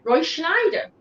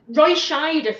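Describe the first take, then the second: First: The surname has an n sound after sh. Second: The surname has no n sound after sh. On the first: The speaker calls it wrong. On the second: The speaker calls it right.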